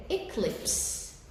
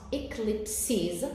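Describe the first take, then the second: First: "eclipse" said slowly in two syllables, e-clips; silent final E. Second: "eclipses" said slowly in three syllables, e-clip-siz; extra final vowel. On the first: Teacher removing the final S, "eclipse" in two slow syllables. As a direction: end "eclipse" on the s sound with no vowel after it. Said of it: "will not be pronounced". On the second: Teacher showing the plural, "eclipses" with three slow syllables. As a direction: sound the added vowel at the end of "eclipses". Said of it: "There is an additional vowel at the end". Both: Shown as a demonstration.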